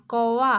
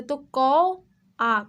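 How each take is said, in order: First: Said in the usual way. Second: Slow split कौ आ, syllable by syllable; syllables split apart. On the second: Shown as a demonstration. Teacher to kids, sounds out कौ आ slowly. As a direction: break कौ आ into its two sounds slowly. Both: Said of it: "उच्चारित हो रहा है अ की मात्रा से".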